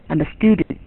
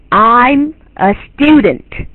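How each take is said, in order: First: Quick, low, soft rendering of "I'm a student"; careless imitation. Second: Very slow, drawn-out "I'm a student"; careful model pronunciation. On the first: Teacher showing how a learner imitates wrongly, careless imitation. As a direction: rush through it quietly, with no melody. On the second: Teacher correcting a learner's poor imitation, careful model pronunciation. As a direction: stretch each word of "I'm a student" with full melody. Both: Shown as a demonstration. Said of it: "这就不是这样".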